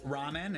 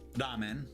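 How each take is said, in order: First: It is said with an American English pronunciation. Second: It is said with a Japanese pronunciation. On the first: The speaker calls it wrong. "Americans do not pronounce correctly" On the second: The speaker calls it right. "it's Japanese"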